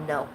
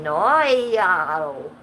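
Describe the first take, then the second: First: Said in the usual way. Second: Drawn-out, louder mock Australian no; Australian accent. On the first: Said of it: "But he said it in an Australian accent". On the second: Streamer quoting Jesus's answer to her question, in a mock Australian accent. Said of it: "he said it in an Australian accent".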